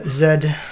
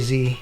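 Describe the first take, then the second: First: The letter is said the British way. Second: The letter is said a non-British way. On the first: This is how people in the UK, New Zealand and Australia say it. "for you guys in the U K and New Zealand and Australia" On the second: This is how the speaker personally says it. "But I say Z"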